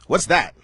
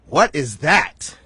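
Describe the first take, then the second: First: The question sounds dismissive and unimpressed. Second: The question sounds amazed and impressed. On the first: The place looked unappealing. "when you would drive past here, you would go" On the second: The place looks impressive. "now people are going to drive past and they're going to go"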